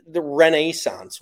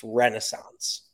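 First: Renaissance drawn out as ruh-NAY-sonce, slow and higher; mock the British Renaissance, louder and stretched; slow, scornful Renaissance with a long NAY; mock British pronunciation. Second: Renaissance slowly as REN-uh-sonce; slow American Renaissance, reduced middle vowel; American pronunciation. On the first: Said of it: "what is that?". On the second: Shown as a demonstration. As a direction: correct Renaissance with stress on REN. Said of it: "that's not the word".

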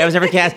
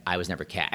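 First: Mock shirt slogan. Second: Said in the usual way. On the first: Shown as a demonstration. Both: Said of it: "I didn't really say".

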